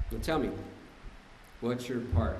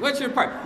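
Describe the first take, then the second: First: Low, soft, measured probing; calm retold question. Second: High-pitched incredulous repeat; mock indignant echo. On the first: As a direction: imitate a partner patiently asking. Partner calmly questions ranting man. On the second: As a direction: throw the question back in mock outrage. Indignantly echoes the hated question.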